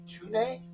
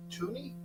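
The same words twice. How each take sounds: First: "Tune" said as TOO-nay, questioning; unsure pronunciation. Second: "Tooney" said as TOO-nee, softer; alternative pronunciation. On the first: Streamer groping for a player's name, "Tune" as TOO-nay. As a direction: try "Tune" with an -ay ending, rising. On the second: Streamer second-guessing a player's name, "Tooney" as TOO-nee. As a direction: try "Tooney" with an -ee ending. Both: Shown as a demonstration. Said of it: "what's his name?".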